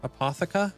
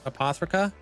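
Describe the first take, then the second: First: The name is said without an R sound. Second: The name is said with an R sound. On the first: "Without the R" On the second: "Am I saying that right?"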